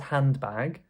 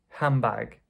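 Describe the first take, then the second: First: The D is said and the N stays N. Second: The D is dropped and the N becomes M. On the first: The speaker calls it wrong. "no one says handbag" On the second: The speaker calls it right. "I did not say the D of hand, ... the N changed to an M"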